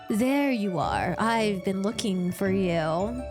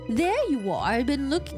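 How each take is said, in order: First: It is said in a man-like voice. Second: It is said in a woman-like voice.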